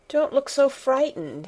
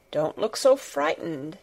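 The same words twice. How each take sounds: First: Higher-pitched, urgent exclamation; troubled outburst, not a shout; exclaimed. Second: Mildly troubled, at an even pitch; understated concern, no outburst; worried voice. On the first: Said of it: "he exclaimed". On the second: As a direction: reassure with a touch of worry. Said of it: "he said in a worried voice". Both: A narrator's reading.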